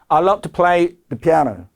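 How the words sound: The voice stops fully after 'piano'. The sentence sounds finished. The speaker calls it wrong. "그래서 끊고, 이게 아닙니다"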